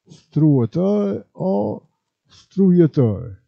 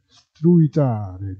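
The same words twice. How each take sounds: First: "Struitare" said slowly as struator, then strujator; "struitare" in dialect, drawn out with the ending -ator; "Struitare o struitare", stru-a-tor; dialect pronunciation. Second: Said in the usual way. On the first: Shown as a demonstration. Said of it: "quando la U non è bene scandita". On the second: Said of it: "si può trasformare in W".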